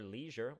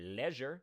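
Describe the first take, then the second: First: It is said in a non-British accent. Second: It is said in a British accent.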